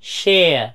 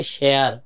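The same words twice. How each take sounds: First: শেয়ার drawn out as "sheh-uh", r dropped; native English pronunciation. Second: শেয়ার with the final r sounded; local pronunciation. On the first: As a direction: stretch শেয়ার and let it glide off without r. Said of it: "ওরা বলে". (শেয়ার টেনে "শেয়া"র মতো, র ছাড়া) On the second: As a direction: say শেয়ার the Bangladeshi way, ending on r. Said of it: "আমরা বলি". (শেয়ার, শেষে র উচ্চারণ করে) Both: Shown as a demonstration.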